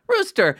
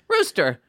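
First: Rooster rising high and bright in a sudden realisation; high excited naming. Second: Said in the usual way. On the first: Retold or imitated. Drama teacher naming him, suddenly much higher. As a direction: hit Rooster much higher as if it just clicked. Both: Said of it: "she goes".

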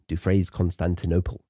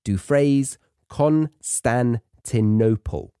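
First: Said in the usual way. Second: Dufresne Constantinople broken slowly into syllables; teacher sounding out "Dufresne Constantinople" piece by piece; slow pronunciation demo. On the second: Shown as a demonstration. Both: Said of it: "practice your pronunciation".

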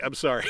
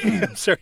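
First: Said in the usual way. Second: Giggling it out while apologising; laughing apology. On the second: Real, not acted. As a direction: say sorry through a laugh, higher and louder. Repeated apology, then laughs.

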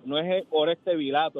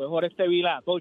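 First: "Vilato" said as ví-la-to, stress on the first syllable; wrong stress on Vilato. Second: "Vilato" said vi-lá-to, stress on the middle syllable; correct stress on Vilato. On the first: Retold or imitated. Caller mocking how the announcer says the name. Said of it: "dice [name], pone el acento". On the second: Shown as a demonstration. Caller correcting the name on air, stressing the right syllable. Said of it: "no es [name]".

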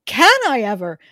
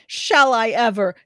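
First: "Can" hit louder, falling at the end; stress on can. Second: "Shall" leaned on, falling at the end; stress on shall. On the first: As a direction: punch "Can" and drop the rest. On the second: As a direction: push the word "Shall" hard, then let it fall. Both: Acted. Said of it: "Shall I ever? Can I ever?".

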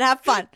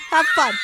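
First: Said in the usual way. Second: Mock shouted goodbye. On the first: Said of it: "Have fun. (repeat)". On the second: Shown as a demonstration. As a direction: Have fun called out louder, like a mock cry.

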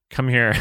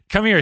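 First: Said in the usual way. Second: "Come here" said much higher and louder. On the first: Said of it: "All right. Come here". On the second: Shown as a demonstration. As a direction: sing out "Come here" high and bright.

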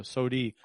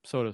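First: "sody" ending in an ee sound; soda as SODY. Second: Said in the usual way. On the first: Retold or imitated. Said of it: "my grandma used to call". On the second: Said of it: "call soda sody".

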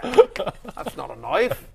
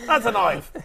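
First: Slow, higher mock Aussie drawl on knife; hammed-up Crocodile Dundee line, slow; very slow mock Australian, rising on knife; Australian accent. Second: Punchy mock Aussie, stress on That's; higher mock Australian payoff line; quick confident fake Aussie delivery; Australian accent. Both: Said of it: "Trying to think Australian".

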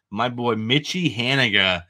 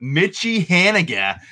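First: Slipping into a New England accent; a New England twang on the name; broad New England vowels. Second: Mitchie Haniga said higher and drawn out, slowly; corrected name. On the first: Real, not acted. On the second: Shown as a demonstration. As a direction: stretch out Mitchie Haniga, high and careful. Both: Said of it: "my New England accent just came out on that".

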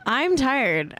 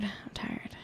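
First: Said in the usual way. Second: Breathless whispered I'm tired. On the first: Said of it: "repeating I'm tired in varied ways". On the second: Shown as a demonstration. Telling her friend she's tired, whispered. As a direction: let "I'm tired" fade to a bare whisper. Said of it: "repeating I'm tired fading to whisper".

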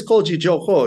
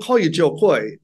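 First: "Koy" said as "Koh"; aunt's correct pronunciation. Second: Said in the usual way. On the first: Retold or imitated. Aunt insisting on what she always called him, "Koy" as "Koh". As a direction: make "Koy" rhyme with "go". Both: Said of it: "supposed to be Jo Koh".

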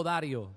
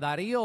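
First: "Dario" con el golpe de voz en la primera sílaba, Da; sin acento en la i. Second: "Darío" con el golpe de voz en la í; acento en la í. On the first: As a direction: pronuncia "Dario" como DA-rio, i breve. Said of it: "No tiene acento en la I". ("Dario" acentuado en la a, sin marcar la i) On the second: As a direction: marca la í de "Darío", separada de la o. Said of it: "¿Dónde tú ves a-, acento en la I?". ("Darío" acentuado en la penúltima sílaba, la í) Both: Shown as a demonstration.

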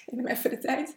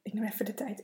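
First: Said in the usual way. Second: Tearful whisper, real emotion; choked-up whisper. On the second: Real, not acted. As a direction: whisper through rising tears. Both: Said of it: "dat het me raakt".

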